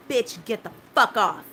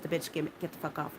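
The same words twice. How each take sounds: First: Loud, sharp retold curse at him; loud angry outburst, retold; retold yell. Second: Low, soft, inward curse; softer private version of the curse; said in my head. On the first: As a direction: fire it off like you're shoving him away. Retold yelling at the medic. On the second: Retold or imitated. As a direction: mutter it to yourself under your breath. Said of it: "in my head".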